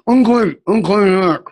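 It is spoken through a clenched, wired-shut jaw.

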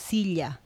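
It is said with a Peruvian accent. "em Peru, decimos silla"

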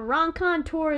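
It is said with an American accent. The speaker calls it wrong. "that's me saying it with my bad American accent"

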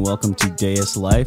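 The voice is smooth, low and relaxed. "when I speak into a microphone, I kind of do this cool KPZ 5000"

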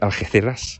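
It is said in Andalusian Spanish, with th sounds. "am I going to say this in Spanish? ... the reason I'm doing all the TH for S's is that in Andalusia"

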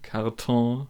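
It ends in a French-style nasalised vowel.

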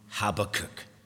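The name is said the English way. The speaker calls it right. "So we'll just use the English"

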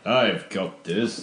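It is said forcefully, with a commanding tone. "I'm in complete control"

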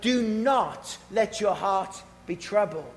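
It is said in a stark, commanding way.

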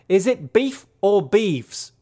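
It is said in a put-on Australian accent.

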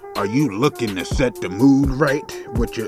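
It is said in a put-on voice.

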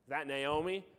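It sounds sarcastic and mocking.

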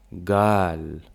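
It begins with a hard g sound.

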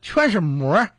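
It is said in a Henan accent.

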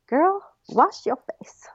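The phrase is said with sassy attitude.

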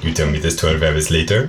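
It is said in a French-sounding accent.

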